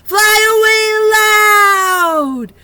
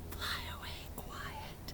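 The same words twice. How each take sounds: First: Sung, much louder, higher slow line; sung, belt it out; big loud sung line; loud singing. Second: Much softer whispered line; hushed whisper; quiet whisper. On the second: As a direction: whisper it very softly. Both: Shown as a demonstration.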